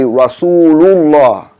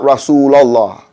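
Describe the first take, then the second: First: The vowel before 'lah' sounds like 'oo'. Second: The vowel before 'lah' sounds like 'ah'. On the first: The speaker calls it right. "we supposed to say Rasulullah" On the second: The speaker calls it wrong. "not Rasulallah"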